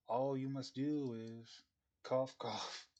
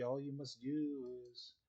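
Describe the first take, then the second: First: Choking mid-sentence; overacted death scene. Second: Slow, strained and choked; overacted death scene. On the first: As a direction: cough through the words. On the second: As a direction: force the words out past the cough. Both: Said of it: "spice stuck in my throat".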